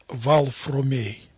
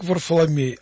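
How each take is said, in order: First: The name begins with 'Val' and has an 'r' later. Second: The name begins with 'Var' and has an 'l' later. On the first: This is how the name was said in earlier times. "а произносилось как Валфромей. Так наши предки произносили это имя" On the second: This is the usual later form of the name. "Оно произносилось не как Варфоломей"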